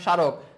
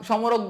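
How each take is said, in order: First: The m sound after the first consonant is silent. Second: The m sound after the first consonant is pronounced. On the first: The speaker calls it right. "আমরা কি বলি" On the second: The speaker calls it wrong. "আমরা সমরাগ সমরক বলি না"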